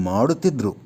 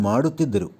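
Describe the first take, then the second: The two takes are said the same way.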